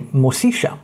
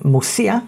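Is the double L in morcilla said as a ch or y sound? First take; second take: ch; y. First: The double L sounds like a ch. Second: The double L sounds like a Y. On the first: This is the Argentine pronunciation. "But in Argentina, it's a Ch" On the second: This is the usual Spanish pronunciation. "if you're used to Spanish, you would know that a double L is a Y sound"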